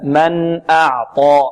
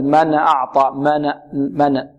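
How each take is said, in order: First: ن of من shut cleanly, then a drawn-out أعطى; still n. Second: ن of من with a stray vowel, "mana"; bounced n. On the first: Teacher corrects the bounced version for students, still n in من. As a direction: say من with no vowel after the n. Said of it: "لا". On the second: Teacher shows what we must not say, bounced n. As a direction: let the n in من spring open before أعطى. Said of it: "لا نقول". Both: Shown as a demonstration.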